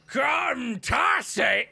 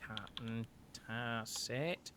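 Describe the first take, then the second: First: Big drawn-out shout, pitched up; booming voice. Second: Slow, soft repeat of a name; quiet echo. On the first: Dragonborn calls out the captain from the background, booming. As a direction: bellow it slowly from across the room. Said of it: "you hear a large, like, booming, uh, voice". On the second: Innkeeper repeats the captain's name to note it, softly. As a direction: say it low, as if noting it down. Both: Acted.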